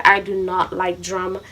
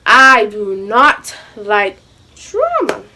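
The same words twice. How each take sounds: First: Said in the usual way. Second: "I do not like drama" stretched slowly word by word; emphatic, drawn out. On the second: Shown as a demonstration. Telling viewers she means it, "I do not like drama" slow and emphatic. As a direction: spell out "I do not like drama" at half speed, pausing before "drama". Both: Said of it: "when I say I do not like drama".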